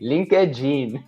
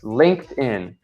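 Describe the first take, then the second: First: It is said with a Brazilian Portuguese pronunciation. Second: It is said with an English pronunciation. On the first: "I love the abrasileirado versions of that" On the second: "linked is pronounced much is like this"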